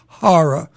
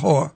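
First: It is said with two clear syllables, 'horror'. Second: It is squeezed to sound like one syllable, 'whore'. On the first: The speaker calls it right. "that's horror" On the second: The speaker calls it wrong. "not horror"

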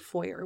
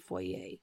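First: It is pronounced the American way. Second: It is pronounced the speaker's own non-American way.

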